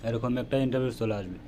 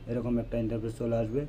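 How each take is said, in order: Both takes have the same delivery.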